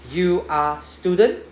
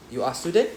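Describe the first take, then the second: First: Slow question. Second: Said in the usual way. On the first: Shown as a demonstration. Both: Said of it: "Question mark".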